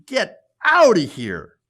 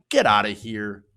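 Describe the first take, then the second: First: Louder, drawn-out "outta"; hammed-up slow dismissal. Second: Said in the usual way. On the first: Shown as a demonstration. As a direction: stretch it out mockingly loud.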